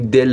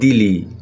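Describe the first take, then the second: First: It ends in a short e sound. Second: It has i sounds, ending in ee. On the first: This is how Iranians say it. "ما میگیم دله" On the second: This is how Tajiks say it. "اونا میگن دیلی"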